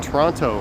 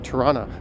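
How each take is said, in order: First: Every syllable is pronounced fully and carefully. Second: The word is clipped and syllables run together. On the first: It is said the way an outsider would say it. "I pronounce it the way you would expect someone not from here to pronounce it" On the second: It is the relaxed local way among friends. "in casual conversation with my friends"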